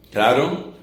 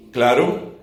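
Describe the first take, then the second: No difference in how they are said.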